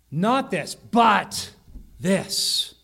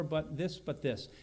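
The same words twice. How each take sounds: First: "but" punched out loud between pauses; emphatic BUT. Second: Offhand, unstressed "but this"; casual "but". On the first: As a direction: hit "but" hard, set apart from "this". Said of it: "then they have one for emphasis". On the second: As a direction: toss off "but this" quietly and low. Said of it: "It's kind of a casual". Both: Shown as a demonstration.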